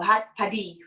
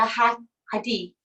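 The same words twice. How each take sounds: First: "had padi" with a p starting the second word; "padi" pronounced PA-dee; alternative pronunciation. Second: "had, hadi" with an h starting the second word; "hadi" pronounced HA-dee; first pronunciation option. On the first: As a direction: say "padi" with a p in place of the h. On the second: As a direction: say "hadi" with a breath of h, no p. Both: Shown as a demonstration. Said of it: "whichever way you wanna pronounce it".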